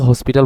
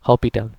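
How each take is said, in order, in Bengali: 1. p-এর আগে একটি s উচ্চারণ করা হয়। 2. p-এর আগে কোনো s উচ্চারণ করা হয় না। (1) "অনেকে হসপিটাল বলে" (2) "এটার উচ্চারণটা হবে হপিটাল"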